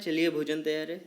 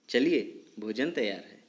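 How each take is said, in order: First: It is read straight through without a pause. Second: There is a short pause after the first word. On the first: The speaker calls it wrong. "मैंने ऐसे पढ़ा क्या" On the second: The speaker calls it right. "चलिए पे मैं थोड़ी देर रुक गया"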